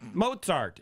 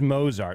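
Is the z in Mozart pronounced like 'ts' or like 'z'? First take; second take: ts; z. First: The z is pronounced as a ts sound. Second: The z is pronounced as a plain z sound. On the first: This is the proper Austrian pronunciation. The speaker calls it right. "it's pronounced properly" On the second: This is how the teacher says it. The speaker calls it wrong. "my teacher says Mozart"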